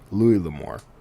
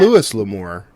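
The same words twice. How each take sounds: First: The S at the end of Louis is silent. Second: The S at the end of Louis is pronounced. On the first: The speaker calls it right. "as long as you don't pronounce the S in my dad's name" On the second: The speaker calls it wrong.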